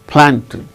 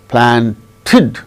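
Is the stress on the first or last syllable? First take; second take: first; last. First: The stress is on the first syllable. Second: The stress is on the last syllable. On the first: The speaker calls it right. "The stress should be only on the first syllable" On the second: The speaker calls it wrong. "no. The stress shall not be on the last syllable"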